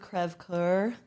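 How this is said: The name is said with a French pronunciation. This is the original foreign word. "the French word crève coeur. I don't know if I pronounced that correctly"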